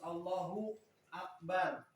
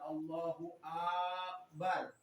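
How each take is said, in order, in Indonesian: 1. Frasa itu diputus oleh jeda. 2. Vokal dipanjangkan tanpa putus. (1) "tidak boleh diputus Allahu Akbar" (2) "tidak boleh dimadkan Allahu Akbar"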